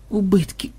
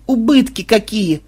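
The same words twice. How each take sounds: First: Soft, mournful moan on убытки. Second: Higher, slow wail on убытки какие; mournful wail. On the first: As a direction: sigh out убытки in grief. (горестный стон) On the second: (горестное причитание) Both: Acted. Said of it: "горестно застонала Мелисса".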